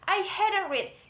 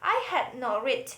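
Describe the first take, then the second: First: Had and not are contracted into hadn't. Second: Had and not are said as separate words. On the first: "we can contract these two parts together in the negative" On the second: "all we do is insert the word not"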